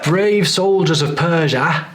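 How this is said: The final vowel of 'Persia' sounds Cockney. The speaker calls it wrong. "that's not consistent with the accent"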